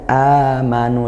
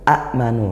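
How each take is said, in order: First: The opening vowel is smooth and drawn out long. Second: The opening vowel is clipped by a glottal catch. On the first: The lengthening replaces the heavy form. The speaker calls it right. "lebih ringan tapi dipanjangkan satu alif" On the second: This is the original, heavier form. The speaker calls it wrong. "aslinya pada asalnya a'manu"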